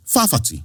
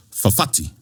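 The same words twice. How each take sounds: First: "fa fati" with stressed, long first syllable, FAA-fati; learners' mispronunciation. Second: "fafati" as fa-FA-ti, short first syllable; correct second-syllable stress. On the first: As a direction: lean on the first "fa" of "fa fati", higher. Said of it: "would read that third word and say". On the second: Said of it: "the way we pronounce this word". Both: Shown as a demonstration.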